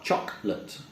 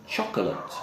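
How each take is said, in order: First: CHOCOLATE as "CHOK-lut"; softer, clipped-to-two-syllables CHOCOLATE; two-syllable pronunciation. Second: CHOCOLATE as "CHOK-uh-lut"; three-syllable CHOCOLATE; full-syllable pronunciation. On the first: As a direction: drop the middle vowel of CHOCOLATE. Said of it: "just two syllables". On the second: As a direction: sound the middle vowel of CHOCOLATE. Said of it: "Another silent syllable word". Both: Shown as a demonstration.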